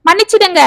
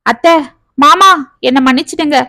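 First: Higher, breaking wail of a plea. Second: Pleading to in-laws, mildly tearful; a gentle sob in the plea. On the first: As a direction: cry the word out, voice cracking up high. (உயர்ந்த குரலில் கதறல்) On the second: (லேசான அழுகையுடன் கெஞ்சல்) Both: A narrator's reading. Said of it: "என்று கதறினாள்".

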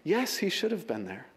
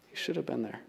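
First: Said in the usual way. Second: A hushed echo of the line before; soft echo. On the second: Shown as a demonstration. Preacher letting the admission sink in, softly echoed. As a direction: repeat it much softer, letting it sink in.

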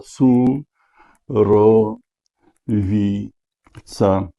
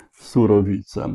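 First: Su, ro, wi, ca split into separate beats; checking the word syllable by syllable. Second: Said in the usual way. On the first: Shown as a demonstration. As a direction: spell out "Surowica" one syllable at a time with pauses.

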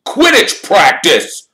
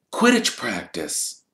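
First: High, slow, loud team captain rousing a sleeper; Wood's eager voice. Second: Said in the usual way. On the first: Acted. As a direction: bellow it out like a keen captain at dawn. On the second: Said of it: "said Harry flatly".

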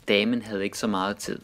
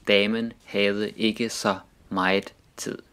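First: Said in the usual way. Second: "meget" and every other word fully sounded out; "Damen havde ikke så meget tid" spaced out for learners; careful word-by-word pronunciation. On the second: Shown as a demonstration. Sentence repeated slowly, word by word.

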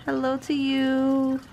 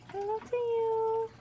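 First: Drawn-out greeting. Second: Hello to you squeaked up high and thin; squeaky high. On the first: Greeting doll, slow loud. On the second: Greeting the doll in a squeaky high voice. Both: Acted.

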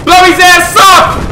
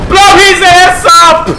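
First: Hyped shout. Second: Drawn-out high shout; slow hyped shout. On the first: Hyped cheering. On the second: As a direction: stretch each word, yelling. Repeated hype shout. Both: Real, not acted.

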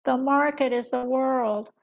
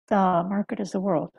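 First: Slow, deliberate impression of the economist; slow, weighty economist impression; mimicked economist. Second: Said in the usual way. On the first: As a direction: lay the line down slowly like a pundit. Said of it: "Mimicry is not required". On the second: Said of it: "you can just be yourself".

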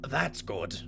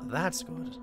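First: Put-on manly voice. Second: Voice cracking. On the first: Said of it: "Trying to be more manly". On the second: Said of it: "My voice cracked". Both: Real, not acted.

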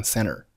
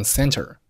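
First: "center" said as "cenner", no T after N; native-style "center" with a silent T; dropped T. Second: Said in the usual way. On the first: Shown as a demonstration. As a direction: leave out the T in "center". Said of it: "这个T可以不用报出来". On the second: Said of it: "很多老外就会读成center".

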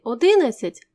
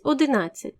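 First: Одинадцять stressed early, on -ди-; одинадцять with faulty early stress; wrong stress. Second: Одинадцять stressed on -над-; одинадцять with standard stress on -над-; correct stress. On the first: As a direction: misplace the stress in одинадцять onto the second syllable. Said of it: "іноді можна почути одинадцять замість одинадцять". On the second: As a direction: put the stress of одинадцять on the third syllable. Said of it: "замість одинадцять". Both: Shown as a demonstration.

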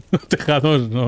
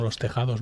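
First: Slow, laughing through the words. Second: Said in the usual way. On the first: Real, not acted. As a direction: chuckle the words out slowly. Repeats phrase, laughing.

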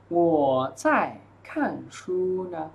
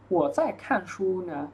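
First: Drawn out, pausing between words; slow model reading. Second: Said in the usual way. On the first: Shown as a demonstration. Teacher reading the dialogue answer for students, slowly. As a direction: give each word room for learners.

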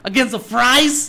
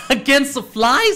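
First: Questioning, with "fries" said with an R; puzzled "fries", R after the F. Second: Questioning, with "flies" said with a clear L; puzzled "flies", L after the F. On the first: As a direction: say "fries" with FR, not FL. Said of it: "Is it chicken fried rice". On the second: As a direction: say "flies" with FL, not FR. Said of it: "is it chicken fly". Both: Shown as a demonstration.

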